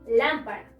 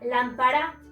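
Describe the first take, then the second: First: The stress is on the first syllable. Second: The stress is on the last syllable. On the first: The speaker calls it right. "Y en esta sonaría" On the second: The speaker calls it wrong. "En la última diría"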